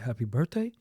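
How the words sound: The voice rises at the end, like a question.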